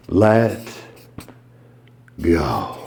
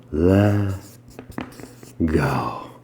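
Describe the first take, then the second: First: Hypnotic let go. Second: Much lower and softer, drawn out; deeper hypnotic let go. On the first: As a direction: lower and softer, released slowly. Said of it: "Number six". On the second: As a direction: sink fully on go. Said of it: "I'll even double it up". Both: Shown as a demonstration.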